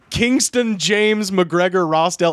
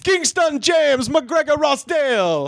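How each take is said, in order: First: It is said in the speaker's normal voice. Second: It is said in a put-on character voice.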